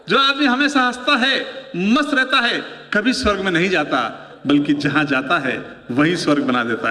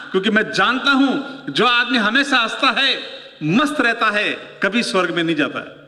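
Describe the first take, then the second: First: Now say it for real, lifting it up; real delivery. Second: Said in the usual way. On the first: Shown as a demonstration. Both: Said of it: "अब तक केवल mic test कर रहा था मैं".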